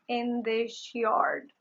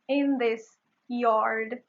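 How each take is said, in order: First: The s in this sounds like sh. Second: The s in this is a plain s.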